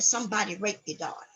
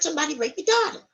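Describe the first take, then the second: First: Spoken in a polite, formal adult voice. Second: Spoken in a high, childlike voice. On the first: A professional is delivering the news. "let's take it from a professional" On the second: A child is delivering the news. "let's take it from a kid point of view"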